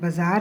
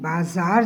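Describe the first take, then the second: First: The vowel is said short. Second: The vowel is said long. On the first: The speaker calls it wrong. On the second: The speaker calls it right.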